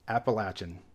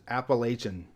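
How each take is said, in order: First: It is said the way Southerners pronounce it. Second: It is said the way Californians pronounce it. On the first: This is how people in the region say it. The speaker calls it right. "that's when I learned it's actually pronounced Appalachian" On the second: This is how outsiders to the region say it. The speaker calls it wrong. "All my life growing up in California, it was Appalachian"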